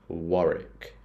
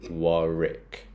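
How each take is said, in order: First: The second W is silent, ending in 'rick'. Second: The same.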